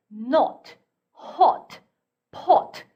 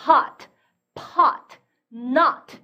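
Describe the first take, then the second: First: Not, hot, pot with a rounder O near Korean 오; British short O. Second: Hot, pot, not with an open "ah" vowel; American short O. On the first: Teacher showing students British not, hot, pot, with rounded short O. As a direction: round the vowel in not, hot, pot, mouth less open. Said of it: "영국 영어로 건너가면 오히려 우리말의 오에 가까울". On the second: Teacher showing students American hot, pot, not, with ah-like O. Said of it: "아 이런 소리가 난다고 했어요". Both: Shown as a demonstration.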